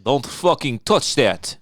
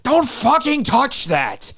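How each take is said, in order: First: Put-on slow, level Eastern European accent, no scream; quiet Eastern European accent. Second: Loud, slow Eastern European grandma yell; Eastern European accent. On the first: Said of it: "Well, she screamed it". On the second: Retold or imitated. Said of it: "In some Eastern European accent".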